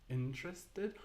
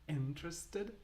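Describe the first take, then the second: The two takes are said the same way.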